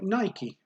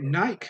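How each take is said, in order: First: The name is said the American way. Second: The name is said the British way. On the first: "in the U S, they call it Nike" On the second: "In the U K, we usually call it Nike"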